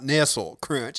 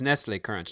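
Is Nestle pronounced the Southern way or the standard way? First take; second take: Southern; standard. First: Nestle is said with a Southern regional pronunciation. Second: Nestle is said with the standard pronunciation. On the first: The speaker calls it wrong. "not Nestle Crunch, as I was saying" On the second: The speaker calls it right. "apparently it's Nestle Crunch"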